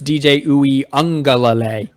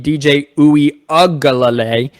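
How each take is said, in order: First: The surname has an 'ng' sound. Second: The surname has a plain 'g' sound. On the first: "I think it's the ung sound" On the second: "it might be the ug sound"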